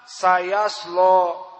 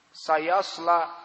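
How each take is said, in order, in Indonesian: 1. L yang tebal dan berat menghasilkan vokal yang gelap. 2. Vokal a panjang yang biasa mengikuti l yang ringan. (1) "dinamakan lam al-mughalladhah" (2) "hukumnya adalah mad tabi'i"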